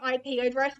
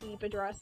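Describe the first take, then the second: First: IP is spelled out as two letters. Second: IP is said as one word, eep.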